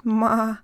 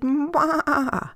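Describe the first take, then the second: First: Louder little call. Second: Much higher little goat call; high bleat. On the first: Goat calling down to the meadow, loud. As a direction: call out to mama below. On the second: Goat calling up the taller mountain, high bleat. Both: Acted.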